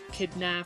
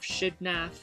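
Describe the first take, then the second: First: The name begins with a k sound. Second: The name begins with a sh sound.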